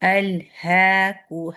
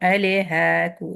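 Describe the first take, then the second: First: The L sound is short, with no trailing vowel. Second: The L sound is drawn out with a trailing vowel. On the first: The speaker calls it right. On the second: The speaker calls it wrong.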